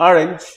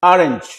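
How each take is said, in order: No difference in how they are said.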